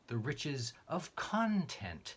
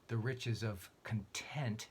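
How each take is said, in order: First: The stress falls on the first syllable of content. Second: The stress falls on the second syllable of content. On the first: The riches are what fills one's heart and mind. "as in the content of one's heart" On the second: The riches are those of being satisfied. "as in the riches of contentment"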